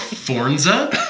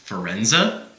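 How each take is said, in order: First: Said with an extra n before the z. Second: Said with an extra e and n sound. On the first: "they just add e's and n's that don't exist" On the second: "they just add e's and n's that don't exist"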